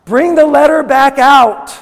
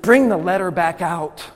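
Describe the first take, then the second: First: High, very loud preacher's command; urgent, impassioned bellow; angry-sounding shout. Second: Said in the usual way. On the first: Real, not acted. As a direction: shout it out at full force. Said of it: "I sound angry".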